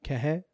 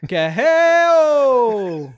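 First: Said in the usual way. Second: Long, high, very loud whooping holler; powwow call. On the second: Pretend. Performing a call on cohost's request, high drawn-out holler. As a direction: let it ring out high and sliding down. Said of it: "he sounds like those ladies at the powwow".

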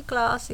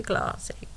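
First: Said in the usual way. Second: Classy whispered with no voice. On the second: Acted. Narrator muttering after the rude remark, whispered. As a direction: breathe it out with a whisper.

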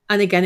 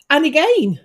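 First: Said in the usual way. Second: Higher, retold exclamation; put-on high "And again"; imitating the medium. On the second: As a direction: call it out in mock dismay. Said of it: "she came out with".

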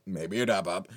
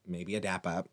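First: Louder, playful repeat with a bit of swagger; playful emphasis. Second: Said in the usual way. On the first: Acted. Pitching a dap to viewers instead of handshakes, playful and louder. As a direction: sell the dap like it's the cool option.

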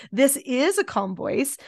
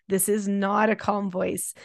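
First: Demo calm voice. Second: Said in the usual way. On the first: Shown as a demonstration. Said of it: "teach them, this is a calm voice". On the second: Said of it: "teach them".

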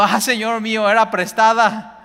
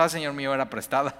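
First: Loud, high wail of dismay; anguished cry. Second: Said in the usual way. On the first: Acted. Woodcutter crying to the prophet over the lost axe, loud high wail. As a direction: cry out as the borrowed axe sinks. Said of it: "y gritó diciendo".

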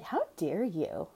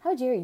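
First: Drawn-out, slow how dare you; slow disbelieving reproach; slow indignant. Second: Higher, louder how dare you; sharp rising indignation; indignant outburst. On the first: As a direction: let the outrage sink in slowly. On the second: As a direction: fire it back at her. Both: Retold or imitated. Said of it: "I'm like".

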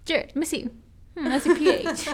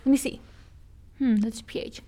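First: Playful inspecting voice, higher and louder; mock inspector, higher. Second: Lightly playful inspecting voice, a hint of scrutiny; mock inspector checking. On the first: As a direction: repeat the check with a higher, louder, teasing voice. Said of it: "I was like". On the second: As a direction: mimic someone studying a lipstick colour, with a thoughtful hmm. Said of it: "I was going up to Jonah and I was like".

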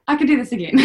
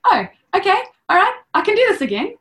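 First: Settling resolve. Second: High, loud and fast, pumping herself up; hammed-up brave cheer; mock psyched-up. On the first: Retold or imitated. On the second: Mother retelling psyching herself up in labour, mock cheerful. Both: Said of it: "And I was".

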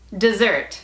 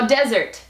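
First: "desert" as duh-ZERT, the verb; "desert" said just like dessert, stressed ZERT; second-syllable stress. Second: "desert" as DEH-zert, the noun; "desert" with a strong first syllable; first-syllable stress. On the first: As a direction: punch the last syllable of "desert". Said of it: "y se pronuncia". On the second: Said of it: "y se escribe como". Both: Shown as a demonstration.

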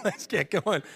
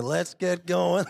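First: High, laughing repeat of the call; laughing wake-up call. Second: Eager wake-up call. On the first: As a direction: laugh it out while urging them. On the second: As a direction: rouse the sleepy family, slowly. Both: Retold or imitated. Rousing family early on Sundays.

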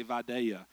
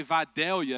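First: Vidalia with the L dropped, like vy-DAY-ya; local pronunciation. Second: Vidalia with the L clearly sounded; careful outsider pronunciation. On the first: Preacher showing the hometown way, Vidalia without its L. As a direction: say Vidalia loosely, swallowing the L. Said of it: "you say Vidalia because you talk slow". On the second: Preacher showing how locals don't say it, Vidalia with a clear L. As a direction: say Vidalia fully, as spelled, with its L. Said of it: "you don't say Vidalia". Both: Shown as a demonstration.

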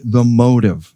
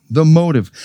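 First: Said in the usual way. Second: "The motive" repeated with weight on "motive", falling; "motive" hammered home with a firm fall; stressed repeat. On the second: Shown as a demonstration. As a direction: land hard on "motive" the second time.

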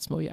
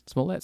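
First: Smollett with the final t dropped, ending "-ee"; alternative pronunciation. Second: Smollett ending in a clear "let", as a question; unsure pronunciation. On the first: Host forgot actress's surname, trying Smollett as SMOH-lee. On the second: Host forgot actress's surname, trying Smollett as SMOH-let. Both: Shown as a demonstration. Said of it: "I forgot how to pronounce her name".

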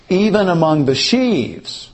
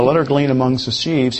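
First: "Even" raised and punched at the start; stress on EVEN. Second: Said in the usual way. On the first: Shown as a demonstration. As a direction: open with a strong "Even". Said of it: "He starts his comment by saying". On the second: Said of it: "he's not simply saying".

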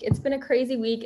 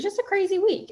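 First: Said in the usual way. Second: Crazy week said much higher, thrown up with excitement; excited. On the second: Real, not acted. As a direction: lift the whole line up, amazed at the week. Retelling a hectic week, pitch jumps.

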